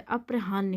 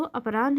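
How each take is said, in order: First: अप्रहान्य with h before n, "aprahaan-ne"; corrected sound order. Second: अपराह्न with n before h, "apraanh"; wrong sound order. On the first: Teacher correcting students, अप्रहान्य said as "aprahaan-ne". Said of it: "अप्रहान्य होता है". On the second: Teacher showing the error, अपराह्न said as "apraanh". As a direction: end अपराह्न on n plus breath of h. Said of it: "तो अपराह्न नहीं होता". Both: Shown as a demonstration.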